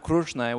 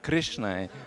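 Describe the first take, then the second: First: The vowel after 'Kr' sounds like 'u'. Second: The vowel after 'Kr' sounds like 'i'. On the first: This is how Marathi speakers say it. The speaker calls it wrong. "we don't have Krushnai" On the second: This is how it should be transcribed. The speaker calls it right. "we have Krishnai"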